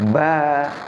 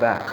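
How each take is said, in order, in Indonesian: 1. Vokalnya panjang, dua ketukan. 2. Vokalnya pendek, satu ketukan. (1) "maka dibaca panjang. Ba, kalau dalam ketukan itu dua ketukan" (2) "pendek, ya pendek"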